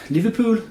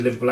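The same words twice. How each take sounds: First: "Liverpool." said higher in a mock Liverpool accent; a hint of Scouse on "Liverpool."; Liverpool accent try. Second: Said in the usual way. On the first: Shown as a demonstration. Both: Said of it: "I can't do the Liverpool accent".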